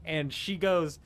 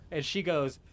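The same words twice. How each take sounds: The two takes are said the same way.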